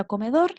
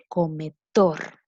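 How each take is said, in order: First: Said in the usual way. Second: "cometor" with the final "tor" stressed and drawn out; teacher's demo of "cometor", weight on the final "tor"; stress on last syllable. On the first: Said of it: "la sílaba que se pronuncia con más fuerza". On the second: Shown as a demonstration. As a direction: lean hard on "tor" at the end of "cometor". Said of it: "es donde recae la fuerza en la palabra".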